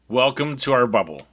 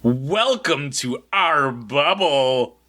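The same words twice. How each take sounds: First: It sounds flat and unwelcoming. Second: It sounds cheerful and enthusiastic.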